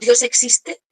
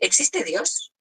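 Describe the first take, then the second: First: It is said as a certain statement. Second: It is said as a doubtful question.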